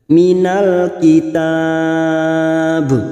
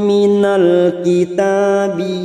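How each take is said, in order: First: It stops on b, the long vowel held longer. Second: It ends on a short i, running straight on. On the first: The reciter pauses at this word. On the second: The reciter continues without pausing.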